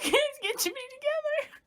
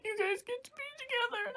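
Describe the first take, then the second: First: Very high mock-crying wail; acted sobbing reaction. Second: Very high, soft weepy squeak; acted tearful voice. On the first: Viewer echoing Sam at the grave, acted sobbing. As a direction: wail it as if bursting into tears. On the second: Sam at his parents' grave, acted tearful voice. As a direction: squeeze it out softly, mock-crying. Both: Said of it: "could have bursted out in tears".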